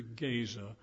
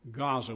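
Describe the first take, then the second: First: "Gaza" said GAY-zuh; older pronunciation of Gaza. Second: "Gaza" said GAH-zuh; today's pronunciation of Gaza. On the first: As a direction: say "Gaza" with a long AY first. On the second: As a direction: say "Gaza" with an open AH first. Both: Shown as a demonstration. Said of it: "Gaza, we call it today".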